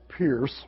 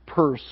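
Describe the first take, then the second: First: The name is said with an 'ear' vowel. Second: The name is said with an 'er' vowel. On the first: The speaker calls it wrong. "not Pierce" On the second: The speaker calls it right. "Pronounce it uh, Peirce"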